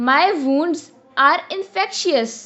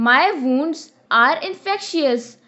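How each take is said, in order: The two takes are said the same way.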